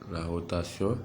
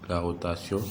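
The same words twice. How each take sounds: The two takes are said the same way.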